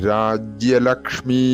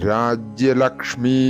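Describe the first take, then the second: No difference in how they are said.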